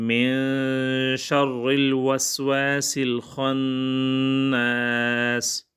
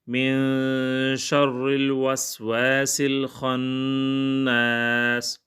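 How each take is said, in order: Both takes have the same delivery.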